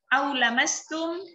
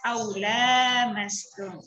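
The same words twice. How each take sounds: First: The vowel after the L is short. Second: The vowel after the L is long.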